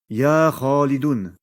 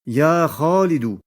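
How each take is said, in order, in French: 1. Le nom se termine par un son n. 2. Le nom se termine par une voyelle simple. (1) "et non pas" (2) "il perd le tanwin"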